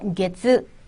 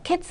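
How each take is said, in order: First: The first consonant is voiced, like g. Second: The first consonant is voiceless, like k. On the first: The speaker calls it right. "어두에 타금 있어요" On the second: The speaker calls it wrong. "캐츠 아니고요"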